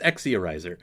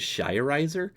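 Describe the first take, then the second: First: The name starts with an 'eks' sound. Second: The name starts with a 'sh' sound. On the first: "so it's Exiorizer" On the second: "it's more of a shish sound, and so it ends up properly being pronounced as Shirizer"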